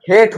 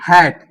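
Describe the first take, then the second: First: हेट with a long ey vowel, the wrong reading of hat. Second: हैट with a short open ae vowel, as in English hat. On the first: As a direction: say हेट with the long a sound, like hate. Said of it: "long vowel के रूप में प्रयोग". (हेट को long vowel से गलत बोलना) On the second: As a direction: say हैट with the short flat a sound. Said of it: "जैसे आपके सामने एग्जांपल है". (हैट को शॉर्ट वॉवेल से बोलना) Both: Shown as a demonstration.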